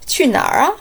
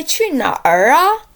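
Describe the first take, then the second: First: 哪儿 as one syllable, tongue tip curled; rolled 哪儿. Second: 哪儿 split into two syllables, questioning; mispronounced 哪儿. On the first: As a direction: start 哪 and quickly roll the tongue into 哪儿. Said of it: "quickly roll the tip of". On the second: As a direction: say 哪儿 as separate 哪 and 儿, incredulously. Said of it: "No, no, no, no". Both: Shown as a demonstration.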